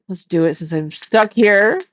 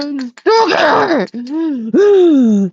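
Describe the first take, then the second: First: Said in the usual way. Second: Higher, emphatic, here dragged out; exclaimed complaint. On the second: Real, not acted. Repeats stuck here, exclaiming.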